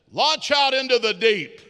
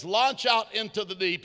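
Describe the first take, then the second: First: Loud, higher command to launch; commanding call. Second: Said in the usual way. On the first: Acted. Jesus calling Peter out, loud commanding voice.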